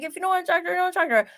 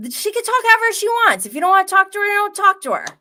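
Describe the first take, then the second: First: Imitating a blunt retort. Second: Mock boyfriend's defense. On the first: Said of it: "could have sounded a little bit bad the way he was like".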